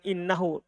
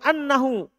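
First: The first vowel is a front 'i' sound. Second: The first vowel is an open 'a' sound. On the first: The words are simply reported as they were said. "kalau antum tidak amalkan dia amalannya donna, antum katakan innahu" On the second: The verb of saying is treated like a verb of thinking. "antum fathah hamzanya anna setelahnya"

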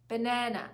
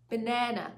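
No difference in how they are said.

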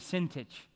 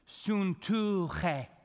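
First: The vowels sound like 'ih', ending in 'tich'. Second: The vowels sound like 'oo', ending in 'che'. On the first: The speaker calls it wrong. "It's the wrong pronunciation" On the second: The speaker calls it right. "here's the way you pronounce the name"

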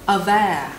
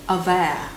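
No difference in how they are said.

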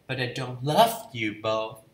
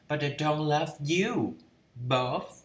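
First: The stress is on love. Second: The stress is on you.

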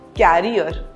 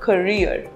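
First: The word is said like 'carrier', with the stress on the first syllable. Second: The word is said like 'ca-reer', with the stress on the second syllable. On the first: The speaker calls it wrong. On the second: The speaker calls it right.

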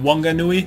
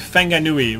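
First: The word begins with a w sound. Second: The word begins with an f sound. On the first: This is the English-style pronunciation some older speakers use. The speaker calls it wrong. "rather than" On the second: This is the Māori pronunciation most people use. The speaker calls it right. "the WH is actually pronounced F"

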